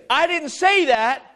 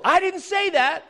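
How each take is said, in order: First: Slower, with "say" punched loud; stress on say. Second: High, with "I" hit hard; stress on I. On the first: Preacher's second try for the congregation, stressing say. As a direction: drag it out and land on "say". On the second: Preacher disowning the verse to the congregation, stress on I. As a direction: lean on "I" so the blame falls elsewhere. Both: Shown as a demonstration. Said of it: "Let me try that again".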